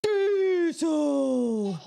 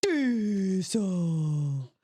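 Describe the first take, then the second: First: Put-on high, loud, wailing toddler Diesel. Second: Put-on toddler voice. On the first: Mother imitating her toddler shouting the dog's name. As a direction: belt it out like a stubborn little kid. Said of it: "Auden would be like". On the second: Mother imitating her toddler's answer to her sister, drawn out. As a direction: say it like a little kid answering. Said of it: "Auden would go".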